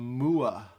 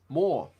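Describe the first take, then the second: First: The name is not said like 'more'. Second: The name is said exactly like 'more'. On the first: The speaker calls it wrong. "He would always call him Moore" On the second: The speaker calls it right. "Like more fish"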